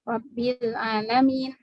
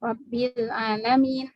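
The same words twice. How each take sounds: First: The long vowel is held for two counts. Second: The same.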